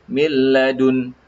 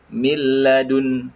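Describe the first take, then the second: The two takes are said the same way.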